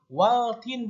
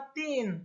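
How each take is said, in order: First: An l sound is heard before the t. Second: No l sound; the t is doubled. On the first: The speaker calls it wrong. "bukan waltin" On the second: The speaker calls it right. "dibacanya watin"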